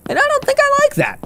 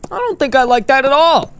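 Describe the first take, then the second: First: Much higher, fast squeaky voice. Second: Said in the usual way. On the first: Pretend. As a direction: squeak it out quickly. Repeats it in a squeaky voice.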